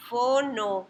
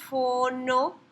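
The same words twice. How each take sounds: First: "Fono" said alone, falling, a bit louder; root stressed. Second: "fono" said alone with a rising tune; root stressed. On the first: Teacher showing students the root, "Fono" stressed and falling. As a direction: set the root "Fono" apart with a falling close. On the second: Teacher prompting students to recognize "fono", rising. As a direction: lift "fono" at the end as if asking. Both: Shown as a demonstration. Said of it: "Vean la raíz en este caso".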